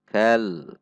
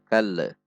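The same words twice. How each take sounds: First: The final l is held without bouncing. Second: The final l bounces with a small release. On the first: The speaker calls it right. "Namun kal, tahan di titik lam supaya tidak memantul" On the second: The speaker calls it wrong. "lam sukun tidak boleh memantul, tidak dibaca kal"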